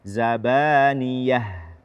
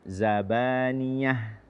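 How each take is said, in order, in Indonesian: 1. Kata ini diucapkan tanpa bunyi sengau. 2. Kata ini diucapkan dengan bunyi sengau. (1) "tidak ada e, ikut serta rongga hidung" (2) "jangan sampai kita ikutkan rongga hidung... tidak"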